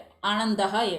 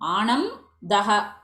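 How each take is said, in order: First: It is joined into one word with an n sound. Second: It is split into two parts with an m sound. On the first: This is how the word is normally said. The speaker calls it right. "you make it anandaha eva" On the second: It shows the two parts for understanding. The speaker calls it wrong. "not possible to say this word in a split manner"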